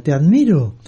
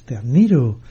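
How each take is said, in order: First: Restrained call out to the mountain; mild mock shout. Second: Answering echo. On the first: Father calls to the mountain, mild mock shout. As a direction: call it out without really yelling. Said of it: "el padre gritó a la montaña". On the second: Retold or imitated. Mountain returns the father's call, understated echo. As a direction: give it back as a mild echo. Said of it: "Y se escuchó".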